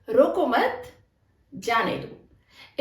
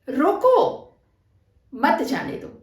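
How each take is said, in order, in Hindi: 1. विराम दूसरे शब्द के बाद है। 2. विराम पहले शब्द के बाद है। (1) "हमारा विराम यहां पर होगा। ... उसे मत रोको, जो भी है उसे रोको मत, जाने दो उसे।" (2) "इसे मैंने यहां से हटाकर यहां लगा दिया"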